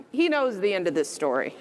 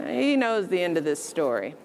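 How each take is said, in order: Both takes have the same delivery.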